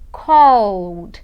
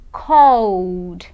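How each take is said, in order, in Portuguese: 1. A terminação é apenas um som de d no final. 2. A terminação é apenas um som de d no final.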